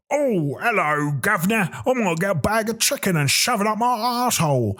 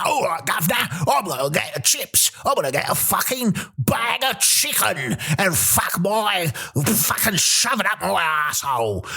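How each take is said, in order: First: High, singsong mock English accent; second English accent. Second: Hammed-up English accent. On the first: Comedian mimicking yet another English town, lilting English accent. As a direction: lilt it like a caricature English local. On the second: Comedian mimicking another English town, hollered English accent. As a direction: holler it like a caricature English local. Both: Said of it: "you go to another place".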